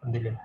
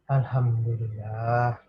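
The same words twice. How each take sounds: First: It is said quickly and hurriedly without calm. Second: It is said slowly and calmly after a breath. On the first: "Jelas itu terasa lebih berbeda" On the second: "dengan cara tarik nafas tenang"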